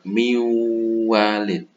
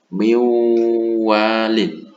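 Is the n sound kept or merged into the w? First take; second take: merged; merged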